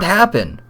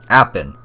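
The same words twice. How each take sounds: First: Said in the usual way. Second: British "Happened" with the h dropped; attempted British accent. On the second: Player redoes the inspector's word, attempted British accent. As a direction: say "Happened" as "'appened", British style. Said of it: "can't even do a freaking British accent".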